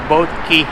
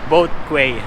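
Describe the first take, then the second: First: The last word sounds like 'key'. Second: The last word sounds like 'kway'. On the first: The speaker calls it right. "it's pronounced as key" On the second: The speaker calls it wrong. "I was reading that as Quay"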